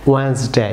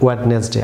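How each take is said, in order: First: ওয়েডনেসডে said "wens-day"; silent D. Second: ওয়েডনেসডে as "wed-nes-day", every D sounded; wrong pronunciation. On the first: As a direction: skip the first D in ওয়েডনেসডে. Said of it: "silent থাকবে". (ওয়েডনেসডে-কে দুই সিলেবলে "ওয়েন্সডে") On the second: (ওয়েডনেসডে-কে "ওয়েড-নেস-ডে", প্রথম ডি সহ) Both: Shown as a demonstration.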